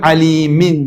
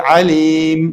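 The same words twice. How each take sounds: First: عەلیمین with its final -in fully sounded; tanween pronounced. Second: Slow عەلیم closing on m; pausal stop, tanween dropped. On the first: Teacher giving the word before stopping, عەلیمین with sounded n. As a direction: say عەلیمین ending in a clear n. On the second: Teacher showing how to stop on it, عەلیم ending on m. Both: Shown as a demonstration. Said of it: "لەسەری ڕاوەسن".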